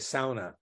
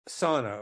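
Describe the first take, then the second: First: It is said with a Finnish pronunciation. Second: It is said with an ordinary English pronunciation.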